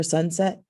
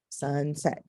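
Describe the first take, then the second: First: Said in the usual way. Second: "sunset" as two separate beats, sun, set; split into syllables. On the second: Shown as a demonstration. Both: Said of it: "syllables would be".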